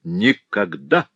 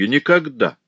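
First: Slow, rising repeat of Никогда; repeating it to himself, slow and rising; drawn-out never. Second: Firm, louder exclaim; Alfred refusing outright; resolute exclamation. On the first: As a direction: stretch Никогда out slowly with a rising end. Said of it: "решительно воскликнул". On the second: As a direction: slam the door on it. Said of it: "решительно воскликнул Альфред". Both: A narrator's reading.

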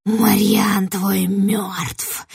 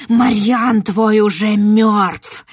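First: Very slow breathy whisper; eerie whisper. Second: Loud, slow shriek. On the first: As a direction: hiss the words slowly. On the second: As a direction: screech the news at the girl. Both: Acted. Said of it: "верещала ведьма".

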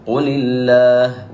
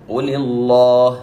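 First: "قل الله" with a thin, light lam after the kasra; "قل الله" drawn out slowly with a light lam; correct light lam. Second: "قل الله" with a thick, emphatic lam; "قل الله" with the lam wrongly thickened; wrong heavy lam. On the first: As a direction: say "قل الله" with the lam of الله softened, not heavy. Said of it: "ولم نقل". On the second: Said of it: "خطأ وثقيلة على اللسان". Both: Shown as a demonstration.

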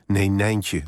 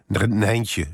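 First: Put-on understated indignant child's correction; a touch of crossness, firmly contradicting; mildly cross. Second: Lightly voiced excited child's cry; a touch of eager calling out, within narration; mildly enthusiastic. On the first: Child correcting parent about the bunny, mildly cross. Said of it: "zei ze boos". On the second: Small child spots the Easter bunny, mildly enthusiastic. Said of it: "riep ze enthousiast". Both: A narrator's reading.

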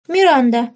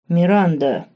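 First: Put-on high, loud childish call; much higher and louder girl's shout; little girl crying out. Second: Lightly voiced bass interjection; bass voice cutting in. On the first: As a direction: call out the name like a frightened girl. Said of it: "выкрикнула девочка". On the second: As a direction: step in firmly like a grown man. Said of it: "вступил в разговор Бас".

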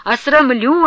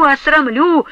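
First: Осрамлю louder and higher, with a rise; осрамлю shouted louder, rising; raging repeat. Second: Осрамлю louder still, higher, with a rise; осрамлю hurled hardest of all; second осрамлю at its loudest, rising; raging repeat. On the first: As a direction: hammer осрамлю at him again. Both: A narrator's reading. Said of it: "пуще прежнего лютовала Устинья".

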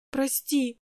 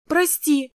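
First: Soft, small sobbed sorry; little sister sobbing an apology to her brother. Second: A high, louder, tearful sorry; little sister crying out to her brother; pleading apology. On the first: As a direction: whimper it through tears. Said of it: "всхлипнула она". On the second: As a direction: beg forgiveness on the edge of tears. Girl begs her brother, crying. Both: A narrator's reading.

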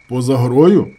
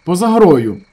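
First: Louder, rising on грою; questioning. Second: Loud, high, flat fall on грою; stubborn repeat. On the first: Injured man asks back in disbelief, rising. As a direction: ask it back, doubting. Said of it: "перепитав травмований". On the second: Gas workers stubbornly repeat the claim, loud. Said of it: "незадоволено, проте вперто повторили". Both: A narrator's reading.

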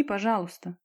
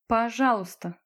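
First: Said in the usual way. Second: Exaggerated echo of a polite request; mocking mimicry. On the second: A narrator's reading. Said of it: "Лариса передразнила её интонацию".

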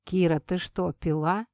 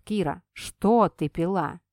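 First: Said in the usual way. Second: Что stressed, slow and suspicious; Red slowly presses on что, suspicious. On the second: Acted. Red corrects himself, slow, stressing что. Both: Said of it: "а затем сам себя поправил".

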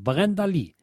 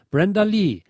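First: the singer's name read with German r and open vowels; German phonetic spelling. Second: Said in the usual way. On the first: Shown as a demonstration. Reading the label's phonetic hint to dealers, German-style pronunciation. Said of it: "dann die phonetische Umschreibung". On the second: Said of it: "folgender Aussprachehinweis gegeben".

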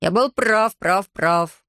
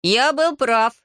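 First: Insistent self-talk, repeating itself; muttering to himself. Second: Put-on high, croaking boy's outburst; croaked. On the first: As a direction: repeat it to yourself like a fixation. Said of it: "бормотал себе под нос Хаята". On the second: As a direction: croak it out higher than usual. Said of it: "каркнул Хаята". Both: A narrator's reading.

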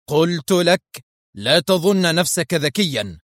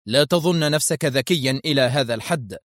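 First: Higher, insistent stern rebuke; stern interruption. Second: Restrained, mildly stern rebuke; stern interruption. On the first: Masked man silencing Isaac a second time, sternly. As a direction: cut in firmly, tolerating no argument. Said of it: "قاطعه المقنع مرة أخرى في صرامة". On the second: Masked man cutting Isaac off, mildly stern. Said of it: "قاطعه المقنع في صرامة". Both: A narrator's reading.

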